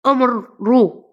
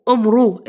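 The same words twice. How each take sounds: First: أمر رو spoken slowly, broken into two parts with the راء stretched; slow teacher sounding-out of أمر رو; split into syllables. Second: Said in the usual way. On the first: Shown as a demonstration. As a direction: spell out أمر رو syllable by syllable for the class. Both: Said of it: "الراء مضمومة".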